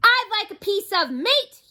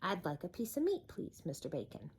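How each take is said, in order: First: High, loud boom. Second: Soft, polite request; quietly. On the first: Mister Noisy booms at the butcher, booming. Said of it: "he boomed". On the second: Mister Noisy asks the butcher politely, quiet. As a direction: ask gently and politely. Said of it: "he said quietly". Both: Acted.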